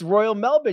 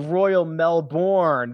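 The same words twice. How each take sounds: First: Melbourne is pronounced with an Australian accent. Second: Melbourne is pronounced with an American accent. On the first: The speaker calls it right. "It's Royal Melbourne. You got to say it like the Australians do" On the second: The speaker calls it wrong. "these uneducated Americans, they want to say Royal Melbourne"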